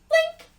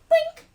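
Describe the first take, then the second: Both takes have the same delivery.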